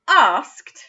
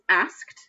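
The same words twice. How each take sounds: First: The vowel is a long 'ar' sound. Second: The vowel is a short 'a' sound. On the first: "that a is making an r sound" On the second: "the tricky bit is the ed at the end of the word, which makes a t sound"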